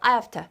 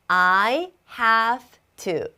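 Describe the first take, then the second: First: It is said very quickly and heavily reduced. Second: It is said slowly with every sound clear. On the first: "더 빠르게 하면은" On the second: "이렇게 정확하게 천천히 얘기해주면"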